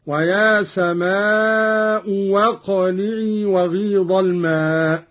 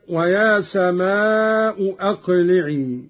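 First: واقلعي begun with w, no glottal stop; slow "samaa'u waqli'i" for سماء واقلعي; hamza as waw. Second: أقلعي begun with a glottal stop; سماء أقلعي as "samaa'u aqli'i", slowly; full hamza. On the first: Teacher showing Qalun's reading, second hamza turned to waw in واقلعي. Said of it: "بإبدال الهمزة الثانية واوا". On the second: Teacher quoting the verse first, both hamzas sounded in سماء أقلعي. Verse before Qalun's reading is shown. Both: Shown as a demonstration.

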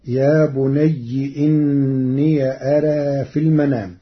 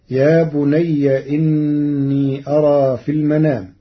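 First: بني with kasra, إني with an open ya, أرى leaning to e; Warsh's يا بني إني أرى in full; Warsh reading. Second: Said in the usual way. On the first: Shown as a demonstration. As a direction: say إني as inniya and أرى with a reduced alif. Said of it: "ففتح ياء الإضافة". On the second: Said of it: "قرأ ورش كلمة يا بني".

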